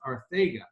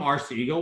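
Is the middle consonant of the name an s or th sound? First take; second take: th; s. First: The middle consonant is a th sound. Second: The middle consonant is an s sound. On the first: The speaker calls it right. "it's actually pronounced Arthega" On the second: The speaker calls it wrong. "we were calling him Arcega Whiteside in the draft room"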